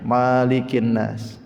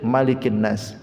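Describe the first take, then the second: First: The first vowel of malik is drawn out long. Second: The first vowel of malik is short. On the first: "ditetapkan alifnya" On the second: "Kalau di sini"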